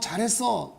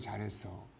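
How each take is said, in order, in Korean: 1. 거칠고 높고 큰 톤으로 말해요. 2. 따뜻하고 낮고 부드러운 톤으로 말해요.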